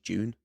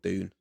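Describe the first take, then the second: First: The word begins with a J sound. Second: The word begins with a D sound. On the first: This is the proper pronunciation of the word. "There's a proper pronunciation of that, of D U N E, is June" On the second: This is what the brand is actually called. "but the actual thing's called Dune"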